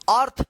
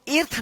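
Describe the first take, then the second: First: The word begins with an uh-like vowel. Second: The word begins with an ee-like vowel. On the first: The speaker calls it right. "ई ए का उच्चारण यहां पे अ हो रहा है" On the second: The speaker calls it wrong. "इसको इर्थ नहीं पढ़ेंगे"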